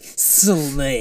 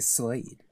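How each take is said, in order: First: The name is said in an exaggerated, dramatic way. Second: The name is said in a plain, normal way.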